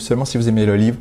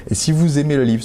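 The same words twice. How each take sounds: First: "seulement" pushed out before the phrase; stress on seulement. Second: Said in the usual way. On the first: Shown as a demonstration. Insisting to viewers on the condition, stress on "seulement".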